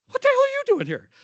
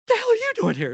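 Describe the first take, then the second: First: Very high, loud, quick echo of delighted shock; the speaker answers the Nebraska nurses with an even higher, faster cry of surprise; surprised exclamation back. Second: Much higher, louder cry of happy disbelief; a Nebraska nurse greets the speaker in surprise, high and loud; surprised exclamation. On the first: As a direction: throw the same surprised greeting straight back. Speaker echoes the surprised greeting back. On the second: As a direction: retell the friends' shocked, delighted greeting. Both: Retold or imitated.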